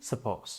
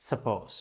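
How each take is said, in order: Both takes have the same delivery.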